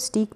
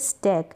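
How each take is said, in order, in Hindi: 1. स्वर 'ee' जैसा बोला जाता है। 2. स्वर 'ay' जैसा बोला जाता है। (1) "स्टीक पढ़ेंगे जो गलत होगा" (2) "इसको पढ़ेंगे स्टैक"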